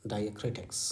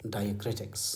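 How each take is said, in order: Both takes have the same delivery.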